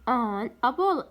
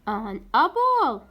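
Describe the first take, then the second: First: Said in the usual way. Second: Slow, louder teacher model of An apple; slow classroom demo; slow model reading. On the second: Shown as a demonstration. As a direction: stretch each word for the class. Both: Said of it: "A تجي قبلها an".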